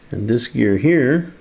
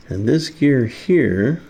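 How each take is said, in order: Both takes have the same delivery.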